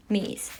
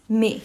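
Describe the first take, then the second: First: "mais" ending in an audible S; "mais" said with its last consonant heard; S pronounced. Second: "mais" said as "meh", no final S; open-ended "mais", last consonant silent. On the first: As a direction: sound the final S of "mais". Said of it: "I'm pronouncing mais". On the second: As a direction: drop the S at the end of "mais". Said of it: "I'm not pronouncing S". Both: Shown as a demonstration.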